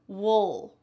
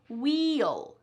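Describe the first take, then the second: First: The word has a swallowed, reduced vowel sound. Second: The word has a clear, full vowel sound. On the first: The speaker calls it right. "Notice how you're almost swallowing that sound" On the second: The speaker calls it wrong. "It is not clear, wheel. It's not clear like that"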